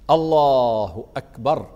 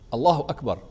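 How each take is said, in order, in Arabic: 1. تُمَدّ العبارة وتُقال ببطء. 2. تُقال العبارة قصيرة وسريعة. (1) "أن تستوعب الحركة بالتكبير" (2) "يا حبيبي مش كده"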